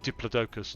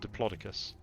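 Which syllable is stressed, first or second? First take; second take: first; second. First: The stress is on the first syllable. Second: The stress is on the second syllable. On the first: It is the British way of saying it. "British people tend to put the emphasis on the first syllable" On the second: It is the American way of saying it. "Americans tend to put the emphasis on the second syllable"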